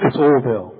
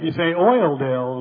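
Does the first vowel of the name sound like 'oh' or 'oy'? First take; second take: oh; oy. First: The first vowel sounds like 'oh' without 'oy'. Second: The first vowel sounds like 'oy' in 'oil'. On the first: This is how locals say the name. The speaker calls it right. "It's Oldale, okay" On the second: This is how outsiders say the name. The speaker calls it wrong. "some of you don't say it right. You say Oildale"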